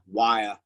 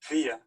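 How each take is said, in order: First: The first vowel sounds like 'eye'. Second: The first vowel sounds like 'ee'. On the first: "you can say it like wire" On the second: "you can say it like weir"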